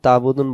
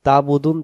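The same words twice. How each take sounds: No difference in how they are said.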